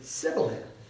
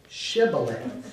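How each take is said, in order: First: The word begins with an 's' sound. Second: The word begins with an 'sh' sound. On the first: This way of saying it betrays the speaker's origin. The speaker calls it wrong. "They pronounce the word Sibboleth" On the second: This is the accepted way to say the word. The speaker calls it right. "they can't say Shibboleth"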